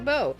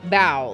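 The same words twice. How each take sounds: First: The vowel rhymes with 'go'. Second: The vowel rhymes with 'cow'. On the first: "It could be bow" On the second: "like like you're on a stage and you're taking a bow"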